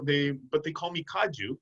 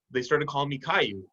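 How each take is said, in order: First: "Kaju" said as kah-joo; "Kaju" with a hard j in the middle; Kaju pronunciation. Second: "Caillou" said as kye-oo; "Caillou" with a glide and no j sound; Caillou pronunciation. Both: Shown as a demonstration. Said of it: "She didn't say Caillou".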